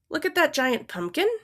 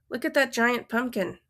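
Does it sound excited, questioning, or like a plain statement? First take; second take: questioning; statement. First: It is said as a question. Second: It is said as a plain statement.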